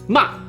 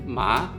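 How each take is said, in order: First: The pitch falls sharply, like a shout. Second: The pitch rises, like asking a question. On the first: "This one's the angry tone. ... You gotta kind of shout it" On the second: "Let's do second tone. ... it's a question"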